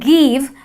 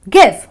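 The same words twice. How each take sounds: First: The vowel is long and drawn out. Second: The vowel is short and brief. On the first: The speaker calls it wrong. "end up saying give, and that is wrong" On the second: The speaker calls it right. "So it's give. It's a short, brief sound"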